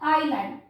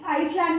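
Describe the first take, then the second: First: The word is said without an s sound. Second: The word is said with an s sound. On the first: The speaker calls it right. "एस silent होता है" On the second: The speaker calls it wrong. "इसको आई आइसलैंड मत पढ़ना"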